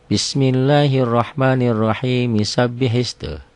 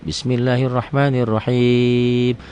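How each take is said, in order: First: Slow chanted Bismillahirrahmanirrahim flowing straight into Misabbihis; recited joined on. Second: Slow chanted Bismillahirrahmanirrahim, stopping on the final mim; recited with a stop. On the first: Teacher shows joining the verses, slow chant. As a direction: link Bismillahirrahmanirrahim to the next word without stopping. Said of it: "Misalnya di wasol". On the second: Teacher shows stopping at the verse end, slow chant. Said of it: "Kalau berhenti". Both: Shown as a demonstration.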